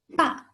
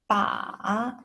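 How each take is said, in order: First: The pitch falls sharply from high. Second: The pitch dips low, then rises. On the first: "The last tone, the falling tone" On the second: "Third tone, the falling rising tone"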